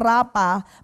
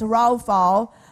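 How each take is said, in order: First: The middle consonant sounds like a p. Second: The middle consonant sounds like an f. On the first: The speaker calls it wrong. "Binabasa po natin ng rapa" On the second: The speaker calls it right. "but it's raufau"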